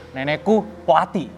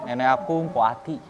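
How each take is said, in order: First: It is said in an angry tone. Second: It is said in an embarrassed tone.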